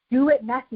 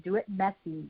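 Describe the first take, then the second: First: Said in the usual way. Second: Much softer, half to herself; softer aside. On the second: Real, not acted. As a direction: drop the volume, say it softly. Coach urging listeners to act.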